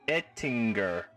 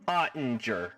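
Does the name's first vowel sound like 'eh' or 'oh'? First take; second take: eh; oh. First: The first vowel sounds like 'eh'. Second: The first vowel sounds like 'oh'. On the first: The speaker calls it right. "Sounds way more authentic that way" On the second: The speaker calls it wrong. "Ottinger sounds wrong"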